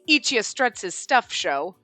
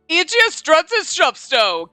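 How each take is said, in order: First: It is read in a plain narrating voice. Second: It is read in a showy announcer voice.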